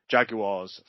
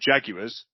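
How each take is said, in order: First: The word is said in a British accent. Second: The word is said in an American accent.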